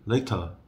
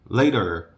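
First: It has a British crisp t. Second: It has an American flapped t.

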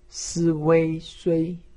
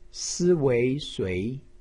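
First: The pitch stays high and level. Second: The pitch rises from mid to high. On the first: "一声" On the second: "二声"

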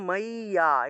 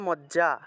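First: The middle consonant is a long y sound. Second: The middle consonant is a doubled j sound. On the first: This is the Sanskrit reading used for the verse. "কিন্তু আমরা উচ্চারণ করবো মাইয়া" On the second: This is the ordinary Bengali reading of the spelling. "বাংলায় বললে মজ্জা"

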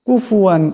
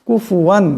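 No difference in how they are said.

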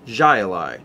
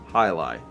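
First: The word begins with a J sound. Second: The word begins with an H sound. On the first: The speaker calls it wrong. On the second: The speaker calls it right.

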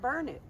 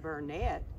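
First: The word sounds like 'burn it'. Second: The word does not sound like 'burn it'. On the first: This is how locals say the town's name. The speaker calls it right. "we pronounce it Burnet" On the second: This is how the spelling suggests it is said. The speaker calls it wrong. "It looks like Burnet"

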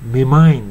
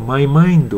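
First: 'My' is shortened to a plain 'ma' or 'mi'. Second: 'My' has the full diphthong vowel.

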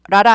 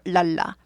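First: The consonants are rolled, R-like sounds. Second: The consonants are clear, unrolled L sounds. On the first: The speaker calls it wrong. "라라는 굴러가죠" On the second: The speaker calls it right. "L은 굴리면 절대 안 되고요"

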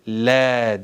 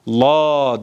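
First: The L sound is light and thin. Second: The L sound is heavy and dark. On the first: The speaker calls it right. "lam harfi ince okunur" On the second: The speaker calls it wrong. "La değil"

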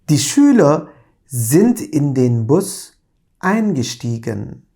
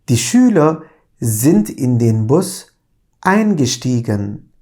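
Both takes have the same delivery.

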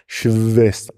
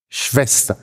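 First: The consonant after 'sch' is a voiced v. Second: The consonant after 'sch' is a voiceless lip-teeth f. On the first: This is over-careful speech by someone speaking very distinctly. "nur wenn sie Lehrer sind und ganz deutlich sprechen" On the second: This is the standard German pronunciation. "Der zweite Laut"

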